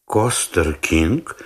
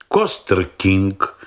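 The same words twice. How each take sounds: First: Surprised. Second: Said in the usual way. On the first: A narrator's reading. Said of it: "удивлённо повторил он". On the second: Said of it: "на наклейке ... сказано".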